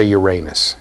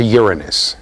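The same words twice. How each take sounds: First: "Uranus" said "your-AY-nus", stress on the second syllable; "Uranus" as "yur-AY-nus", long AY in the middle; old pronunciation. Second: "Uranus" said "YUR-uh-nus", stress on the first syllable; "Uranus" as "YOOR-uh-nus", weak middle syllable; new pronunciation. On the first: Lecturer quoting a colleague, "Uranus" as "your-AY-nus". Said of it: "We've changed the pronunciation to Uranus". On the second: Colleague correcting the lecturer, "Uranus" as "YUR-uh-nus". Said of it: "changed the pronunciation to Uranus". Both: Retold or imitated.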